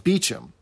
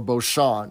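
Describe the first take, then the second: First: The name is said like Beecham. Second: The name is said the way it is spelled. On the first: This is how the bearer says his own name. The speaker calls it right. "the character corrects him as Beecham" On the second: This is the expected reading of the spelling. The speaker calls it wrong. "you'd think that it would be pronounced Beauchamp"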